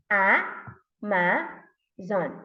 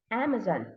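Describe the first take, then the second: First: "A, ma, zon" in three separate beats; syllable by syllable. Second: Said in the usual way. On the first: Shown as a demonstration. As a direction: break "A, ma, zon" apart with clear pauses. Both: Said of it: "How many syllables are there".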